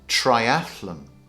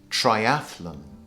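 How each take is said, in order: No difference in how they are said.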